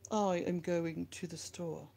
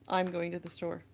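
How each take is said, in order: First: "I am" is said as two full words. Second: "I am" is contracted to one syllable. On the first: "use proper inflection" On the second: "instead of"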